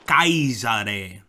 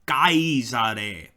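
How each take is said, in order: Both takes have the same delivery.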